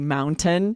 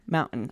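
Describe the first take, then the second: First: The middle T is clearly pronounced. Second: The middle T becomes a glottal stop. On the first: "They think it's only correct if you say mountain" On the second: "I don't say the T. That's a glottal stop"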